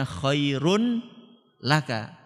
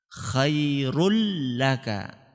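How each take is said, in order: First: Khairun, a break, then laka; wrong reading khairun laka. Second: Khairul laka, tanween swallowed into the lam; slow khairul with the n assimilated; n of khairun merged into l. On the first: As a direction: clear n in khairun, apart from laka. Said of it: "Bukan bacanya". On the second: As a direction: hold the doubled l in khairul laka. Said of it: "Enggak kelihatan kan?". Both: Shown as a demonstration.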